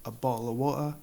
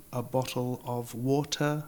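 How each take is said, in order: First: "a bottle of water" sin T, con golpe de glotis; dropped T. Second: "a bottle of water" con las T bien marcadas; careful T. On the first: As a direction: se traga las T de "bottle" y "water". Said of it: "en mi acento nativo es". ("a bottle of water" sin ninguna T) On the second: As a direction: pronuncia cada T de "bottle" y "water". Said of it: "una botella de agua". ("a bottle of water" con T claras) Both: Shown as a demonstration.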